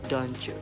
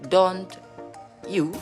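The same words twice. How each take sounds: First: The t and y sounds merge into ch. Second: The t and y sounds are said separately. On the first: Native speakers usually say it this way. "but generally I listen" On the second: Native speakers seldom say it this way. "They seldom I listen native speaker say"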